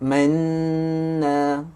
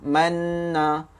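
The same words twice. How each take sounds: First: The doubled n has a held nasal hum. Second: The doubled n has no nasal hum. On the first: The speaker calls it right. "yang tu yang kata bunyi Uh, bunyi dengung" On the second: The speaker calls it wrong. "dia tak ada bunyi mm, mm, kat hidung tu"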